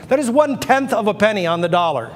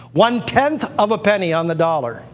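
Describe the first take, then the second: First: "one-tenth" hit higher and louder; stress on one-tenth. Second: "One-tenth" punched, higher and louder; stress on one-tenth. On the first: Auctioneer correcting viewers, stressing one-tenth. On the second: Auctioneer repeating the price, stressing one-tenth. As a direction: lean hard on "One-tenth". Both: Shown as a demonstration.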